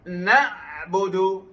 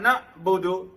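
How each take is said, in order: First: The ain sound continues slightly before budu. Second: The ain sound is cut off abruptly. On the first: The speaker calls it right. "Ada tawasud. Maksudnya ia bertempuh sedikit" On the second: The speaker calls it wrong. "Tidak boleh dibaca"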